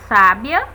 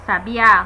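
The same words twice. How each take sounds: First: Sábia com força no SÁ inicial; tônica em SÁbia. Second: Sabiá com força no Á final; tônica em sabiÁ. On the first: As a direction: marque a primeira sílaba, SÁbia. (SÁbia, acento forte no começo) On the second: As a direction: marque a última sílaba, sabiÁ. (sabiÁ, acento forte no fim) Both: Shown as a demonstration. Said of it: "Vejam a diferença".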